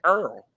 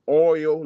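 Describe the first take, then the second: First: Said with an 'er' vowel, like 'earl'. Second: Said with a standard 'oy' vowel sound. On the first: This is how people in New Orleans say it. "We say Earl" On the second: This is how people elsewhere say it. "We don't say oil like y'all said"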